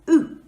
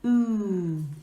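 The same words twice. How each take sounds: First: The vowel sound is short. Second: The vowel sound is long. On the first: "The short way" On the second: "the long way"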